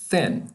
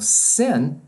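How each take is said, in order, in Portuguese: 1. A palavra começa com um som de th suave. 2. A palavra começa com um som de s sibilante. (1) "Você quer dizer magro, magra. Thin" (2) "Se você produzir como sin, você está dizendo pecado"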